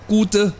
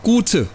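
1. Der mittlere Konsonant ist ein weiches D. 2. Der mittlere Konsonant ist ein hartes T. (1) "das muss ein D sein. Kein T" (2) "Nicht gute"

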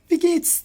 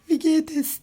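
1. 'es' kısalır, 'geht' ile birleşen bir 's' sesine döner. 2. 'es' kelimesi tam bir hece olarak söylenir. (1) "Genelde bu günlük kullanım dilinde çok yaygın" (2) "diye değil"

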